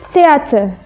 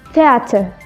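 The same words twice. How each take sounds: First: The vowels in the middle are said distinctly. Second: The vowels in the middle are said distinctly.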